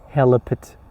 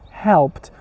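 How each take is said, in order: First: The word is split into separate parts. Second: The word is said as one joined syllable. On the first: The speaker calls it wrong. "You cannot say helped, helped, helped is wrong" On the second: The speaker calls it right. "You should say helped, helped, because H E L pronounced all together"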